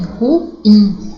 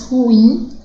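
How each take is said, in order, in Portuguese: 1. A tônica está na segunda sílaba. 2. A tônica está na primeira sílaba. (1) "com a sílaba tônica no in" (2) "coloca a sílaba tônica no rum"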